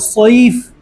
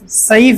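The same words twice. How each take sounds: First: The s sound is heavy, with a full mouth. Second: The s sound is light and thin. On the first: The speaker calls it right. "स्वाद निकालना है मुंह भरकर" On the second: The speaker calls it wrong. "सईफ नहीं पढ़ना है"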